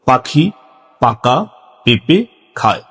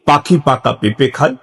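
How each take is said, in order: First: It is said slowly in short separate chunks. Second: It is said at a slightly quicker pace. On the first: "সংক্ষিপ্তভাবে ছোট ছোট করে ... এভাবে বলতে হবে" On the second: "আরেকটু স্পিডে"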